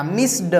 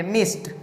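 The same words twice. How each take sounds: First: "मिस्ड" with separate voiced D; ending read as D. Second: "मिस्ट" with S running into T; ending read as T. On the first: Teacher shows the harder reading, "मिस्ड" ending in D. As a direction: say "मिस्ड" with D after S. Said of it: "अगर हम लोग ड बोलते हैं". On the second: Teacher models fluent English, "मिस्ट" with final T. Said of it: "के ट पढ़ेंगे". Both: Shown as a demonstration.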